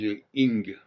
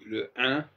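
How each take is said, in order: First: The ending is an English 'ing' sound. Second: The ending is a French nasal vowel. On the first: The speaker calls it wrong. "ils disent le ing" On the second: The speaker calls it right. "au lieu de prononcer le, le un"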